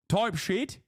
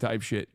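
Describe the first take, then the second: First: It is said in a British-sounding accent. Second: It is said in the speaker's plain accent.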